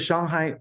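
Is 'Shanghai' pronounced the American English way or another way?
another way. Shanghai is said with a non-American pronunciation.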